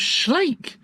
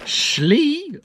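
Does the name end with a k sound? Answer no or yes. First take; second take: yes; no. First: The name ends with an ay vowel and k. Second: The name ends on a long ee vowel. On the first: This is how the speaker believed it was said. The speaker calls it right. "I thought it was Schlake" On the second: Someone else said it this way. The speaker calls it wrong. "I'm pretty sure that's not how you pronounce it"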